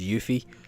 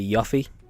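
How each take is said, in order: First: The first syllable follows the Japanese reading. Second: The first syllable is read the anglicized way. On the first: This is the name's proper pronunciation. The speaker calls it right. "Japanese pronunciations of Y U, so I didn't know it was Yuffie" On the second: This is the childhood way of saying the name. The speaker calls it wrong. "I used to always say Yuffie"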